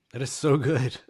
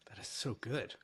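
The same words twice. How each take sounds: First: Emphatic. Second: Quiet. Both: Real, not acted. Repeated praise, soft then loud.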